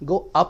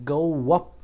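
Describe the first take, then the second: First: No w sound links go to up. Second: A w sound links go to up. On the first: The speaker calls it wrong. "गो अप नहीं" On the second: The speaker calls it right.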